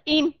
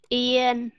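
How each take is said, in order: First: It has a short i vowel ending in m. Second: It has a gliding ie vowel ending in n. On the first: The speaker calls it wrong. "người miền Nam sẽ đọc là im" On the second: The speaker calls it right. "Yên mà đọc chuẩn đó"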